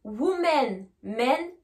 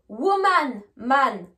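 First: "Women" and "men" with short e; teacher contrasting "men" with a clear e; plural vowels. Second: "Woman" and "man" with open a; teacher contrasting "man" with a wide a; singular vowels. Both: Shown as a demonstration. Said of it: "faites bien la distinction entre les deux".

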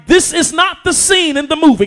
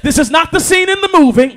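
First: Loud pulpit line; first pass of the refrain; preaching. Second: Shouted pulpit repeat; a repeat pushed up a notch; preaching louder. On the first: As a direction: set it up before the repeat. First take before repeat. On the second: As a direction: throw it higher and harder. Repeats the line, stepping up. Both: Acted.

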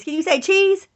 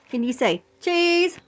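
First: Put-on high, louder cheese prompt to toddler; sing-song prompt to a toddler; coaxing prompt. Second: Slower, high drawn-out prompt; slow sing-song to a toddler; slow coaxing prompt. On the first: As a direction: coax the baby to say it. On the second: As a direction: stretch cheese slowly for baby. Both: Shown as a demonstration.

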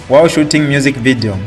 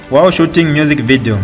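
No difference in how they are said.

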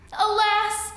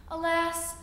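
First: Alas cried out high and loud; loud lament on alas. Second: Said in the usual way. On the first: A narrator's reading. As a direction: wail the second alas. Narrator's lament, repeated louder.

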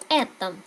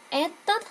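First: Этом stressed on the first E; stress marked. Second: Этот said with the stress on the first E; teacher models Этот for repeating; model word. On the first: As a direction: hit the first syllable of этом. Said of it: "trọng âm". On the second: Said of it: "Các bạn nhắc lại theo mình nhé". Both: Shown as a demonstration.

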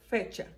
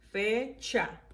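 First: Said in the usual way. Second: "Fecha" split into fe, cha; syllable by syllable. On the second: Shown as a demonstration. Teacher reviewing the words, "Fecha" broken fe... cha. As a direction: pause between fe and cha in "Fecha". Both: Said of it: "vamos a repasar las palabras".

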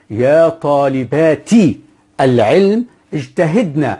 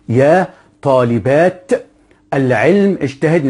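First: Slow, طالباتي with a clear final "-ti", اجتهدن ending "-na"; fully vowelled endings. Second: Word by word, طالبات and اجتهدن with silent endings; without case vowels. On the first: Teacher vowels it so students know, طالباتي ending "-ti". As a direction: sound the kasra on طالباتي and the fatha on اجتهدن. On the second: Teacher reads the example unvowelled, طالبات ending in bare "-aat". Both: Shown as a demonstration. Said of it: "لا شكلها عشان نعرف".

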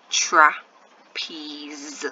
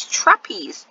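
First: "trapeze" broken into "tra", pause, "peeze"; sounding out in parts. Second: Said in the usual way. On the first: Shown as a demonstration. Teacher building the word for pupils, sounding out in parts. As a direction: slowly split "trapeze" into two stretched parts. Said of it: "Final sound". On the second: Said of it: "The word is".

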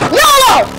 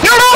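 First: Yelled yolo. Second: Said in the usual way. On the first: Acted. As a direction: belt out yolo as a war cry. Repeated battle cry.

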